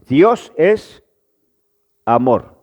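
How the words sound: There is a pause before the last word. The speaker calls it right. "Ahora si yo pongo la pausa"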